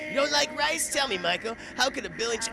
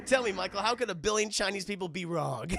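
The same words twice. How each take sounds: First: Vampire line. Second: Vampire line, quoted. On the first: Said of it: "that's right". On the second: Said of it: "That's the line". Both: Retold or imitated.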